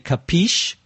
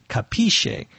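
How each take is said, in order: First: It is said with an American pronunciation. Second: It is said with an Italian pronunciation. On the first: "Americans give it their own American pronunciation. We say capiche" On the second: "The Italian pronunciation, I think, would be capisce"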